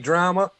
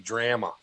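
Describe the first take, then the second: First: It is said in an American accent. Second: It is said in a Canadian accent. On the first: This is how the speaker's own people say it. "We say drama" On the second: This is how people in Canada say it. "they say drama"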